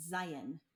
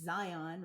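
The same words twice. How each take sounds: First: Zion with a reduced ending, ZY-un; Utah pronunciation. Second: ZION with a full, clear second syllable, ZY-ON; Matrix-style Zion. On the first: Teaching a visitor how Utahns say Zion, local pronunciation. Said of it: "In Utah, it's Zion". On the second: Contrasting the film's Zion for an out-of-towner, Matrix-style pronunciation. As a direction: say Zion as ZY-ON, like the film. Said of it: "you can't pronounce it like that". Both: Shown as a demonstration.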